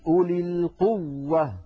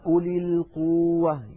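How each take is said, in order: First: The w sound is doubled with clear gemination. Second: The w sound is drawn out as a long vowel. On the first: The speaker calls it right. "بين التشديد" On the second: The speaker calls it wrong. "قوة هنا الواو مطها القارئ"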